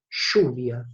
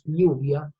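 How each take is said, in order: First: It begins with a Rioplatense buzzing zh sound. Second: It begins with a soft y sound.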